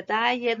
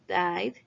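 First: "died" wrongly split in two, "dai-yed"; mistaken extra syllable. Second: "died" as "dide", e silent; one syllable. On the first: Teacher warns pupils how not to say it, extra syllable. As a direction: sound the e in "died", like "die-et". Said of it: "no se dice". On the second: Teacher corrects the mistake for pupils, one syllable. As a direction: say "died" in one beat with a voiced d. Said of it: "una sílaba". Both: Shown as a demonstration.

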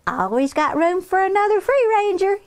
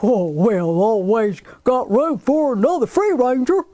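First: Put-on high, bright-spirited girl's welcome; cheerful child. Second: Hearty, folksy farmer voice with a chuckle; jolly farmer. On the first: Henrietta welcoming Claire, cheerful child. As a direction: echo the farmer in a high child's voice. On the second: Acted. Farmer Barney welcoming Henrietta, jolly and hearty. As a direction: welcome them like a big-hearted old farmer.

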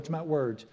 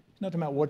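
First: "about" höher betont, "words" fällt danach; stress on about. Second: "words" betont und fallend; stress on words. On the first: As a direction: lean on "about" to correct. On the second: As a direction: lean on "words" as the point. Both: Shown as a demonstration.

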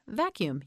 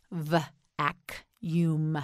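First: Said in the usual way. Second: "Vacuum" split into v... ac... uum; sounded out. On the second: Shown as a demonstration. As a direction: pause between the pieces of "Vacuum". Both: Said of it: "You say it".

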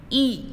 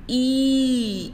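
First: "E" said as a short vowel; a short, quick "E". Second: "E" held as a long vowel; a long, drawn-out "E". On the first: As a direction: keep the vowel in "E" brief. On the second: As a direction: stretch out the vowel in "E". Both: Shown as a demonstration. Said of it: "means short vowel or long vowel".

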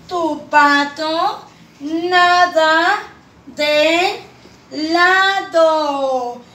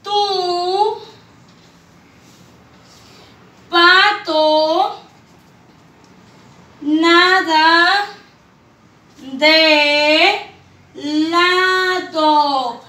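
First: "Tu pato nada de lado" drawn out as one phrase; whole sentence sung out slowly; slow smooth reading. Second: Long pauses between words, each one stressed; "Tu" "pato" "nada" "de" "lado" spaced for children. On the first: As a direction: read it slowly and joined up. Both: Shown as a demonstration. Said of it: "Dice la tercera oración".

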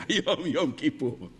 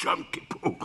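First: Low-pitched, openly voiced announcement; אמירה ישירה בפנים. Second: Voiceless demonstrative whisper; whisper in the ear. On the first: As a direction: say it straight to her face, low. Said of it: "תגיד לה בפנים". (אמירה ישירה בקול נמוך) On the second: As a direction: whisper it secretly into her ear. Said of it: "תלחשו לה באוזן". (לחישה באוזן) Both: Shown as a demonstration.

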